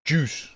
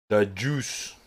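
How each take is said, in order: First: "Juice" said loud and high, savoring the sound; relished juice. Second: Said in the usual way. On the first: Shown as a demonstration. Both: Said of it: "so satisfying to say juice".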